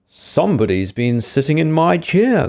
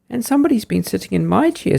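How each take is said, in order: First: It is said in a deep, growling voice. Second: It is said in a shrill, squeaky voice.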